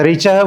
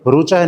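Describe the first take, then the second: First: The word begins with the syllable 'ri'. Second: The word begins with the syllable 'ru'. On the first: This is the Vedic way of saying it. The speaker calls it right. "तो ऋचह बोलेंगे" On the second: This is the regional way of saying it. The speaker calls it wrong. "रुचह नहीं बोलेंगे"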